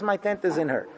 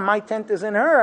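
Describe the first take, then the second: First: MY stressed in "My tent is in her", said softer and falling; quiet, with the weight on the word My; soft voice of Hashem. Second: Said in the usual way. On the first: Retold or imitated. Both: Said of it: "Hashem says".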